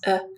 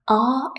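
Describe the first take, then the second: First: It is said as a bare schwa sound. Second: It is said with a full vowel. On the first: "Just schwa, schwa, nothing else, uh, is the weak form" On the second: "Are is the strong form"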